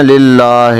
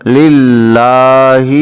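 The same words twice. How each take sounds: First: للہ with a light thin ہ; للہ said carelessly, ہ without chest resonance; common mistake. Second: للہ slow, with a heavy chest ہ; للہ recited slowly, ہ resonating in the chest; correct pronunciation. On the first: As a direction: imitate the wrong light ہ in للہ. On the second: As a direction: draw out للہ with a full heavy ہ. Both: Shown as a demonstration. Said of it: "تو اس کو للہ نہیں کہنا".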